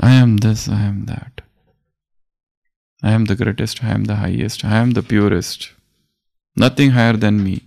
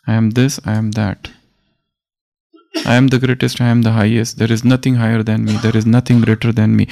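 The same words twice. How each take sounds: First: Humble declaration. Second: Proud declaration. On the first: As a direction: let the big words come gently and selflessly. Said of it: "there is a sense of humility". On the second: Sanjay reports Krishna to the blind king, proud proclamation. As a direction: declaim it as the supreme one, lightly voiced. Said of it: "Krishna is talking like this". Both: Retold or imitated.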